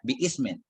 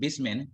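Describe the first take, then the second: First: The hamza is pronounced, splitting the two words. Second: The hamza is dropped and the words run together.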